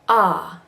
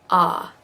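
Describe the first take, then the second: Both takes have the same delivery.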